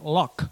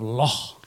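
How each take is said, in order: First: The word ends with a hard k sound. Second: The word ends with a throaty ch sound. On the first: This is how English people say it. The speaker calls it wrong. "Because English people. They say Loch" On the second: This is how German speakers can say it. The speaker calls it right. "Instead of Loch"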